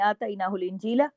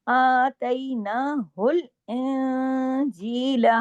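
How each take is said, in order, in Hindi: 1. 'injeela' से पहले की नाक वाली आवाज़ छोटी होती है। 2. 'injeela' से पहले की नाक वाली आवाज़ लंबी खींची जाती है। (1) "अगर आप ये नहीं करेंगे, ऐसे पढ़ लेंगे" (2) "ये इख्फा हकीकी गुन्ना कामिला"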